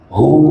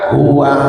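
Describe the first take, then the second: First: The word is cut short, ending on a stop. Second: The word is said with its full final vowel. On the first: The reciter stops at this word. "kalau diwakaf" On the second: The reciter reads on without stopping.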